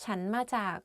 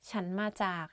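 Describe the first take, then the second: No difference in how they are said.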